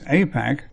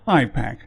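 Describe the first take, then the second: First: The first syllable sounds like the letter A. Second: The first syllable sounds like the letter I. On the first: It points to America. "has little to do with A for America" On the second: It points to Israel. "it is definitely I for Israel-centric"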